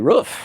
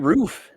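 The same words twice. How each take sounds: First: It is said with an American accent. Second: It is said with a Canadian accent.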